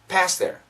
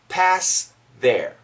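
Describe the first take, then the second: First: Said fast, with no th sound at all. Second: A faint th sound is heard before 'their'. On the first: "the faster we say it" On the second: "There's a little bit of T H"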